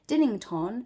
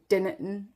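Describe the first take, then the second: First: All of the name's sounds are clearly said. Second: Some of the name's sounds are dropped.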